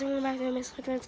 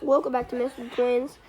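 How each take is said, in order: First: It is said at a faster pace. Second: It is said at a slower pace.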